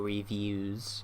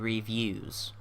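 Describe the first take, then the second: First: The word ends with a plain 'ooze' sound. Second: The word ends with a 'yooz' sound, like 'use'. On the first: "or reviews, as it was" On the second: "it's now going to be reviews"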